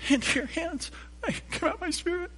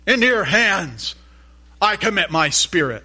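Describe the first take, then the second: First: The phrase is said quietly and weakly. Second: The phrase is said loudly and strongly. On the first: "he doesn't say" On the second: "He says it loud"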